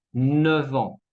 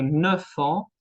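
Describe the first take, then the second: First: Neuf ans linked with a v; F becomes V. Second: Neuf ans with an f sound; unvoiced-style f linking neuf ans; F kept. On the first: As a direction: say "neuf ans" as neu-van. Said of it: "La F se cambia en V". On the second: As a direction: say "neuf ans" as neu-fan. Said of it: "en lugar de decir neuf ans". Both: Shown as a demonstration.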